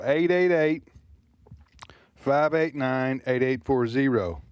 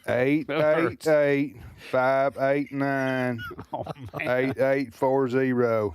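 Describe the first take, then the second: First: The number is said at normal speed. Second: The number is said slowly.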